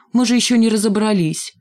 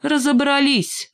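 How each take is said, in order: First: A slightly raised, flustered plea. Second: High, drawn-out, decisive retort; cutting retort. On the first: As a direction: plead that nothing is settled yet. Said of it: "Димка засуетился". (суетливо, растерянно) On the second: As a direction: cut off the objection for good. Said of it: "отрезала железная кнопка". (отрезала, резко и высоко) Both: A narrator's reading.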